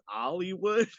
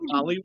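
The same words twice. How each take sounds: First: It is said in an imitated British accent. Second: It is said in an ordinary, non-British accent. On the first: "he's doing the British accent" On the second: "he doesn't say Hollywood"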